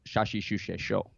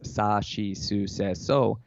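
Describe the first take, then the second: First: The syllables use sh sounds, Saga dialect. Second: The syllables use plain s sounds, standard Japanese.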